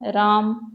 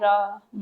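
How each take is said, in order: First: The word is said smoothly as one unit. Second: The syllables are said separately with a pause. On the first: It is a meaningful word. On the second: The separate sounds carry no meaning.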